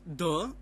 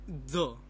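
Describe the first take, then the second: First: It begins with a hard, non-dental d sound. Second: It begins with the tongue between the teeth. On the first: The speaker calls it wrong. "but it's not the" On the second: The speaker calls it right. "We have to put our tongue in between the teeth"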